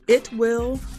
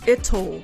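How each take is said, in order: First: Both words are said fully and separately. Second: It is contracted, with a soft second syllable.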